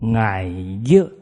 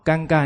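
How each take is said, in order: First: The word is spoken in Southern Min. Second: The word is spoken in Standard Mandarin. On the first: "我念闽南话给你们听啊" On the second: "尴尬念出来"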